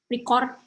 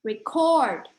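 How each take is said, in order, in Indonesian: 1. Suku kata pendek dan rata, tanpa tekanan yang jelas. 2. Suku kata mengalir dengan satu suku kata yang jelas ditekan. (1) "kayak pendek-pendek" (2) "lebih flowy"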